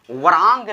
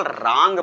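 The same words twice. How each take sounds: First: वरांग with a "va" before the r; W sounded. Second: रांग starting straight on r; silent W. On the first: Teacher showing the misreading, w sounded in वरांग. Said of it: "इसको वरांग नहीं पढ़ेंगे". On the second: Teacher showing the right reading, silent w in रांग. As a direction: drop the w, say रांग. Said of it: "इसको केवल रांग पढ़ेंगे". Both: Shown as a demonstration.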